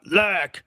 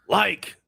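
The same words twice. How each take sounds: First: "Like" as a cartoonish South Park voice; a mild cartoon "Like"; mocking the impersonator's "Like"; South Park-style like. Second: "Like" said the dad's way; dad's way of saying like. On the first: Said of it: "like a South Park character almost". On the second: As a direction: imitate his dad's "Like", lightly. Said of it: "That's what my dad sounds like". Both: Shown as a demonstration.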